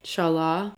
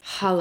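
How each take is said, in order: First: The word begins with a hard ch sound. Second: The word begins with a breathy h sound. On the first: The speaker calls it wrong. "the bread that I used to think was called challah" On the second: The speaker calls it right. "It's challah"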